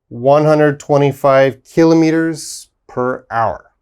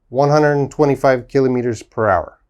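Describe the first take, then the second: First: It is said at a normal, careful pace. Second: It is said a little faster.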